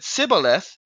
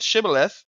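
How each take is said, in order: First: The word begins with a plain s sound. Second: The word begins with an sh sound. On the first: The speaker is an outsider. The speaker calls it wrong. "If you said sibboleth, you would die" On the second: The speaker belongs to the group. The speaker calls it right. "if you said shibboleth, you were safe"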